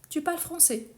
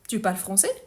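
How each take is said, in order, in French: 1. Elle est dite comme une affirmation, la voix descend à la fin. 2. Elle est dite comme une question, la voix monte à la fin. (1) "ici c'est une affirmation" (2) "Une question directe"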